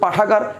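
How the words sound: It is said smoothly in one go. The speaker calls it right. "একবারে হয়ে যাচ্ছে"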